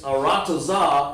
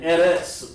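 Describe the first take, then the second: First: The word is said with four syllables. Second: The word is said with two syllables. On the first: The speaker calls it right. "what we say correctly" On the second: The speaker calls it wrong. "they recognize it as eretz"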